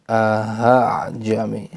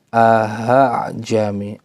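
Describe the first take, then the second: The two takes are said the same way.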